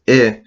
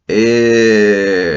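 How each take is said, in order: First: The vowel is short. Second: The vowel is drawn out long. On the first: "it's not just eh" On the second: "that's going to drag our I"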